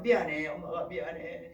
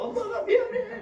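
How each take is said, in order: First: Said in the usual way. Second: High, loud tearful wail; mock crying. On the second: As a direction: imitate a mother wailing her apology. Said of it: "울면서".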